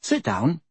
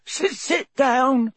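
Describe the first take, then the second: First: Gentle, polite invitation. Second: High, drawn-out tearful elf wail. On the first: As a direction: offer a seat courteously. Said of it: "said Harry politely". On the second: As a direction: wail it slowly in a squeaky voice. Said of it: "he wailed". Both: A narrator's reading.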